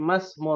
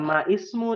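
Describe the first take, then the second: First: The initial i of ismu is dropped and linked. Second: The initial i of ismu is pronounced. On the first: The speaker calls it right. "tapi masmu rojuli" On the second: The speaker calls it wrong. "Bukan Maismu nih"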